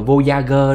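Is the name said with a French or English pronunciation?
English. The name is pronounced the English way. "Tiếng Anh chắc đọc là Voyager"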